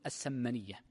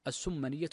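First: "السمنية" said as-Sammaniyya, with an a after the s; fatha on the sīn. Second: "السمنية" said as-Summaniyya, with a u after the s; damma on the sīn. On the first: Teacher quotes how jurists say it, "السمنية" with fatha: as-Sammaniyya. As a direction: say "السمنية" with a short a in its first syllable, sam. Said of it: "يجعلونها بفتح السين". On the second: Teacher gives the dictionary's vowelling, "السمنية" with damma: as-Summaniyya. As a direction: say "السمنية" with a short u in its first syllable, sum. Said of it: "بالضم". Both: Shown as a demonstration.

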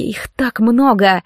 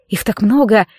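First: "так много" slowed and stretched; slow, weighty stress on "так много"; drawn-out repetition. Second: Said in the usual way. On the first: A narrator's reading. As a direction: dwell on each word of "так много". Repeated thought, dwelt on.

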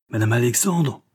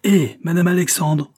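First: First call, higher than usual; mild call down a stairwell. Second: Louder, much higher repeat call; insistent shout. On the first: Man leaning over the stairs to the landlady, calling out. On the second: Man summoning the landlady a second time, shouting. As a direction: hail her harder down the stairwell. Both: A narrator's reading. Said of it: "cria-t-il".

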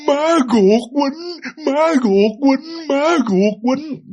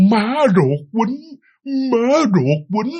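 First: Put-on very slow and high, each word forced out by a boy who can barely speak; labored child forcing out words; strained halting words. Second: Slow and a bit higher, calmer than the first struggling try; slower, calmer. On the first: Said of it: "ông cứ nói ba chữ đó". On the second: Retold or imitated. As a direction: say it slowly and more steadily now. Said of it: "ba ông mới nói chậm rãi hơn".

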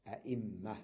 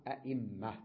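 First: أئمة said with a full glottal stop as "aʔimma"; أئمة with the second hamza kept, "a-ʔimma"; original form. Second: أئمة said as "ayimma", the second hamza softened to a ya glide; أئمة spoken "eimma", with no glottal catch; hamza changed to ya. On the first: Teacher giving students the original أئمة with hamza. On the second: Teacher showing students أئمة with ya instead of hamza. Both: Shown as a demonstration. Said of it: "أصلها أئمة".

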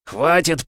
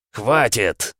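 First: «Хватит» выкрикнуто выше и громче; «Хватит» — с напором, почти отчаянно; громкий крик. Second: Резкий окрик «Хватит!» с падением в конце; «Хватит!» — оборвать бой окриком; восклицание. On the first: Бог останавливает героя. (громкий крик) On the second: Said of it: "воскликнул Эмма". (восклицание) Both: Acted.

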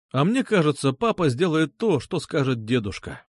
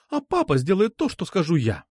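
First: Even delivery, settling down on "дедушка"; calm rebuttal. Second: High start on "папа", landing on "скажу я"; insist, pitching "папа" high and ending firmly on "я"; defiant insistence. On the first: Suitor correcting the girl about grandpa, calm rebuttal. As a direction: counter her calmly, letting "скажет дедушка" fall. Narrator's character calmly counters her. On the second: Girl claiming papa obeys her, defiant. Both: A narrator's reading.

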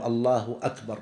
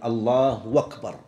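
First: Said in the usual way. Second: "أكبر" said as "wakbar", running on from "الله"; hamza turned to waw. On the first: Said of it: "لا يقول". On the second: Shown as a demonstration. Teacher showing a dialect takbir, "أكبر" pronounced "wakbar". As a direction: glide into "أكبر" with a w: "Allahu wakbar". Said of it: "يقلبون الهمزة واوا".

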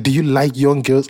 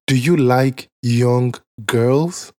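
First: Said in the usual way. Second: Slow mock interviewer question. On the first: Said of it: "baits you with a little question like". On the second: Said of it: "He said".

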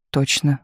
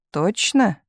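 First: Considered reply. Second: Higher, slyly probing question. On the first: Tumanov answering Misha after thinking, measured. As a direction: answer evenly, as if having weighed it. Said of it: "подумав, сказал Туманов". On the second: Misha squinting at Tumanov, slyly questioning. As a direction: ask it with a sly lift in the voice. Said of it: "хитренько прищурился Миша". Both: A narrator's reading.

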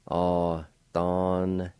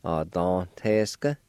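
First: Very slow, drawn-out model pronunciation of "Authentic"; teacher modelling "Authentic" slowly; slow model word. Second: "Authentic" said again, slow and steady, rising at the end; a second careful take of "Authentic"; repeated model word. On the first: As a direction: stretch out every sound of "Authentic". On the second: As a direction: repeat "Authentic" slowly for the learner. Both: Shown as a demonstration. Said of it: "like this".

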